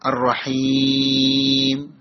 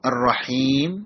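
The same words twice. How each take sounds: First: The long vowel is held for four counts. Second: The long vowel is held for two counts. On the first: "രണ്ടോ നാലോ ആറോ വീതം നീട്ടാം" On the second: "രണ്ടോ നാലോ ആറോ വീതം നീട്ടാം"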